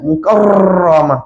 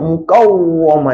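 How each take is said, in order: First: The r is trilled several times. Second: The r is said with rounded lips. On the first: "ra yang fasih ni dia tak bergetar lebih daripada sekali. Jadi tak nak baca mukarramah, tak fasih" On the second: "kalau saya baca mukawwamah, nanti dia jadi tebal, dia jadi tak cantik, jadi terlebih"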